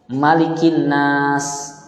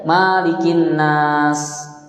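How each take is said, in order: First: The vowel after the first M is short. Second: The vowel after the first M is long. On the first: The speaker calls it right. "mimnya harus dibaca pendek" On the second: The speaker calls it wrong. "Enggak boleh"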